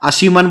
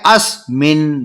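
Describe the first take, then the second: First: A vowel is inserted between the s and m. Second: The s joins the m with no vowel between. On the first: The speaker calls it wrong. "असीमन बोलते हैं बहुत से बच्चे, गलत बोलते हैं" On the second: The speaker calls it right. "से आधा है इसलिए उसको जल्दी बोल रहे हैं"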